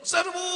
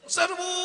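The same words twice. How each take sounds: First: The command is shouted with fiery energy. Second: The command is shouted with fiery energy.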